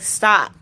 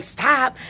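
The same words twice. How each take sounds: First: A flat, falling "Stop." said as a command; firm stop. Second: An indignant "Stop?" rising like a question; mocking echo. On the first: Retold or imitated. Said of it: "and I'm like". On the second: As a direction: throw "Stop?" back at her, offended. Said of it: "And they're like".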